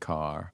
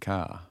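First: It is said in an American accent, R pronounced. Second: It is said in an Australian accent, R dropped.

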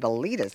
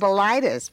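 First: The name is said not rhyming with phlebitis. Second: The name is said to rhyme with phlebitis. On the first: The name does not sound like an illness. The speaker calls it right. "it's got to be Bilitis, so it doesn't sound like an illness" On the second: The name sounds like an illness. The speaker calls it wrong. "Instead of Bilitis, because we didn't want it to sound like a disease"

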